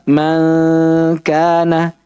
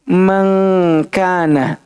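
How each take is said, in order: First: The nasal before k is made without tongue contact. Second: The nasal before k is made with tongue contact. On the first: "ada yang baca dengan mujafa" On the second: "Ada yang baca dengan ilsaq"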